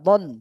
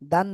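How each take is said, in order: First: The vowel is a dark, rounded 'o'-like sound. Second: The vowel is a clear, open 'a' sound. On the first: The speaker calls it right. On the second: The speaker calls it wrong. "দান না"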